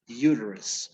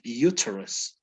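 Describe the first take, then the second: First: The T sounds soft, almost like a D. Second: The T is pronounced strongly and crisply. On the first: This is how it is said in the US. "in U S English, uterus, it's as if the T would turn into a D" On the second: This is how it is said in England. "In England, they would pronounce this word uterus. Okay, the T is really strong"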